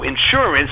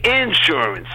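First: Said in the usual way. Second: Insurance with the first syllable stressed, IN-surance; Southern-style INsurance, front-stressed; Southern pronunciation. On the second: Shown as a demonstration. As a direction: punch and stretch the "in" of insurance. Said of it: "they say insurance".

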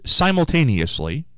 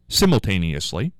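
First: Said in the usual way. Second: "simultaneously" with a short i in the first syllable, as in "sim"; British pronunciation. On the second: Shown as a demonstration. Radio host showing how England says it, "simultaneously" with a short first i. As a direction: say "simultaneously" the English way, starting "sim", not "sigh". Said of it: "as they say in England".

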